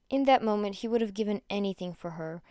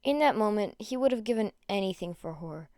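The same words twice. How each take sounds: The two takes are said the same way.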